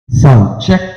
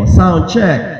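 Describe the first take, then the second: First: The voice has no echo effect. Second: The voice has a heavier echo effect. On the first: "Wala pa yung ano, wala pa yung echo" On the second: "fifty percent ang echo"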